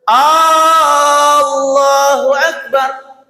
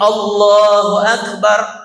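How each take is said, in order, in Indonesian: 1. Vokal pembukanya dibaca panjang. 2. Vokal pembukanya pendek. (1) "alifnya dipanjangin" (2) "Harusnya takbirnya Allahu Akbar"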